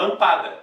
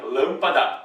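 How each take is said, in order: First: "lampada" stressed on the middle syllable PA; wrong stress on PA. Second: "lâmpada" with a clear stress on LÂM. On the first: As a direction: misplace the stress of "lampada" onto PA. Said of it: "ninguém fala lampada". ("lampada" com tônica errada no PA) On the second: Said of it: "a primeira, né, é a mais tônica". ("lâmpada" com tônica no LÂM) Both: Shown as a demonstration.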